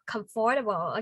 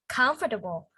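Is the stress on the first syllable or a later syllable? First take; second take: later; first. First: The stress falls on a later syllable. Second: The stress falls on the first syllable. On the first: The speaker calls it wrong. "Comfortable is not comfortable" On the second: The speaker calls it right. "We have to stress in the first one"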